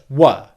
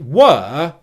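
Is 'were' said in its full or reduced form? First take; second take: reduced; full. First: The vowel is short and reduced. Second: The vowel is long and full. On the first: The speaker calls it wrong. "and not were" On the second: The speaker calls it right. "which is why I'm pronouncing it were"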